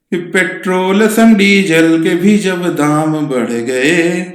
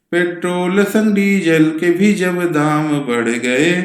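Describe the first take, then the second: Both takes have the same delivery.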